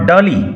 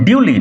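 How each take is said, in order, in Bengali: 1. প্রথম অংশটি 'dah' এর মতো শোনায়। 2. প্রথম অংশটি 'dew' এর মতো শোনায়। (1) "নট" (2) "উচ্চারণ লক্ষ্য করো"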